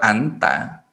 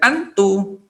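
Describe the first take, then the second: First: The word ends with an 'a' vowel. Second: The word ends with an 'u' vowel. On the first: The speaker calls it right. "Anta ya tetap anta" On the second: The speaker calls it wrong. "anta tidak dibaca dengan antu"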